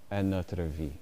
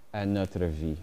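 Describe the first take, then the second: No difference in how they are said.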